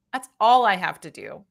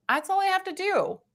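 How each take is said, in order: First: "all" leaned on, falling to a settled end; stress on ALL. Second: High-pitched realization. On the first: Reader settling on blocking bots, stress on "all". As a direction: punch "all", then come down firmly. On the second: Reader realizing blocking bots is enough, high-pitched relief. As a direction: lift the whole line up high, lightly. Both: Real, not acted. Repeats own conclusion for emphasis.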